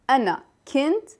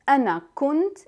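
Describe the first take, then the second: First: The verb has an i sound after k. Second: The verb has a u sound after k. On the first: "the sign that comes under the letter" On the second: "they replaced the alif with dhamma, the sound of u"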